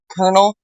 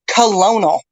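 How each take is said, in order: First: It is said with two syllables, like kernel. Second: It is said with three syllables, co-lo-nel. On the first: The speaker calls it right. "pronounced like a popcorn kernel" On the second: The speaker calls it wrong. "She pronounced it the way it's spelled"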